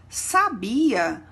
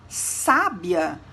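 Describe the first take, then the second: First: The stress falls on the middle syllable. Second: The stress falls on the first syllable. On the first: A past form of the verb to know. "não possui acento" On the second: A very intelligent person. "percebemos o acento agudo na letra A, que segue o S"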